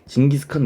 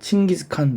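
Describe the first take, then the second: First: The name begins with a soft 'j' sound. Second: The name begins with an aspirated 'ch' sound. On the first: This is the common popular form. The speaker calls it wrong. "우리가 흔히 뭐 어, 징기스칸 이런 식으로 많이 부르곤 하는데" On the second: This is the official form, closer to the original. The speaker calls it right. "이게 몽골 사람들이 쓰는 발음이랑 비슷하다고 하니까"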